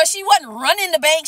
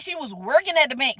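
First: Wasn't leaned on, set against at; stress on wasn't. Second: At leaned on in a softer line; stress on at. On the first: Vlogger correcting viewers, stressing wasn't. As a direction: land hard on wasn't. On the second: Vlogger correcting viewers, stressing at. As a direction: press the word at. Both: Shown as a demonstration.

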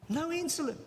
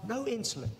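First: "No insulin" higher, stress on insulin; emphatic repeat. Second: Said in the usual way. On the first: Real, not acted. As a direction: drive it home the second time.

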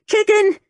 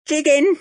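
First: Even higher, louder shriek; louder scream. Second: High screamed taunt. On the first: Old lady screaming after the fleeing boy, loudest. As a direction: throw it after him at full pitch. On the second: Old lady screaming after the fleeing boy. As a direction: shriek it after him. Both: A narrator's reading. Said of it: "she screamed after me".

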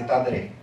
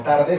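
First: Tadre with d and r swapped; ladino pronunciation. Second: Said in the usual way. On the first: Shown as a demonstration. Teacher showing inverted consonants, ladino pronunciation. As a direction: say tadre, d before r. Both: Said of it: "Por tarde se dice tadre".

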